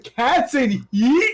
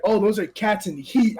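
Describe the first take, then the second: First: Slow, drawn-out disbelieving question; incredulous echo. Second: Said in the usual way. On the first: Retold or imitated. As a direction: repeat it back slowly, not buying it. Retold disbelief at the explanation.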